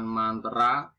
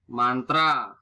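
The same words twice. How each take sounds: First: "mantra" stretched to man-te-ra; nonstandard pronunciation. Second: "Mantra" in two syllables, punched loud; standard pronunciation. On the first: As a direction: add a schwa inside "mantra", slowly. (ucapkan "mantra" menjadi mantera) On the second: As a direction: say man-tra for "Mantra". (ucapkan "Mantra" tanpa e) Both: Shown as a demonstration. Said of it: "bukan mantra".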